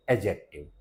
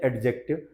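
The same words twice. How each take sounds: First: एडजेक्टिव as "e-jektiv", silent d; correct pronunciation. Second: एडजेक्टिव with the d sounded, "ed-jektiv"; common mispronunciation. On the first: Shown as a demonstration. Teacher correcting everyone, correct pronunciation. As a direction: drop the d in एडजेक्टिव. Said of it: "इसका सही pronunciation है". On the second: Retold or imitated. Teacher quoting what everyone says, mispronounced. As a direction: sound a hard d before j in एडजेक्टिव. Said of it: "सब लोग बोलते हैं".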